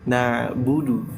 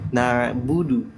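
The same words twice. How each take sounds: No difference in how they are said.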